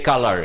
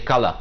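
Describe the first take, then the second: First: The word is said in an American accent. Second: The word is said in a British accent. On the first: This is how Canadians usually say it. The speaker calls it right. "you speak like the Americans usually. So you say color" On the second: This is not how Canadians usually say it. The speaker calls it wrong. "You don't say color"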